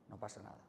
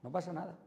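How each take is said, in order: First: Very soft and low, soothing; calm reassurance. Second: Said in the usual way. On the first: Shown as a demonstration. Calming the shouting child, a soft hush. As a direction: settle it down gently. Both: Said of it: "luego hablamos".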